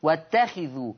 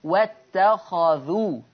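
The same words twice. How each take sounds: First: "واتخذوا" as wattakhidhu, with khi; lower-voiced "واتخذوا" in Hafs's reading, wattakhidhu; kasra on kha. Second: "واتخذوا" as wattakhadhu, very slowly; measured "واتخذوا" in Warsh's reading, wattakhadhu; fatha on kha. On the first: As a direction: give the kha of "واتخذوا" a short "i". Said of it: "حفص بيقرأ بكسر الخاء". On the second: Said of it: "ورش يقرأ بفتح الخاء". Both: Shown as a demonstration.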